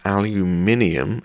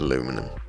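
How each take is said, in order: First: It has five syllables, ending in 'nium'. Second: It has four syllables, ending in 'num'. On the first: "aluminium is how we pronounce it over here" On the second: "I wish we said aluminum"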